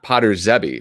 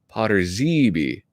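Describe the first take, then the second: First: The middle E is a short vowel. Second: The middle E is a long vowel. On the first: "not Potter Zebby" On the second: "Most use the long E, like here"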